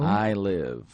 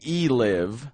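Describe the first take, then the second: First: The first word is said like 'eye'. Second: The first word is said like 'ee'. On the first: The speaker calls it right. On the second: The speaker calls it wrong. "You don't say E live"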